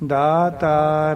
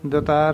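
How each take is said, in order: First: The first vowel is long. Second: The first vowel is short. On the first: The speaker calls it right. "ਦੱਦੇ ਨੂੰ ਕੰਨਾ ਲੱਗਿਆ ਤਾਂ ਉਸ ਦਾ ਉਚਾਰਨ ਕਰਨਾ ਚਾਹੀਦਾ ਇਸ ਤਰ੍ਹਾਂ" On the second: The speaker calls it wrong. "ਦਤਾਰ ਨਹੀਂ ਕਹਿਣਾ, ਰੋਂਗ ਉਚਾਰਨ ਹੈ"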